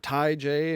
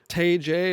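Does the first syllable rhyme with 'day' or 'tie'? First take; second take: tie; day. First: The first syllable rhymes with 'tie'. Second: The first syllable rhymes with 'day'. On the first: The speaker calls it right. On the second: The speaker calls it wrong.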